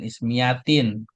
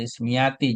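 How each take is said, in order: First: The word ends with an added n sound. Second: The word ends in a vowel, no final n. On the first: The speaker calls it wrong. "jangan ismiyatin" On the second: The speaker calls it right. "ya ini juga al ismiyati"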